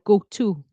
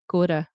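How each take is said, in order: First: The 'to' begins with a clear T sound. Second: The 'to' begins with a D-like sound. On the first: "instead of go to" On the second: "it turns into a D"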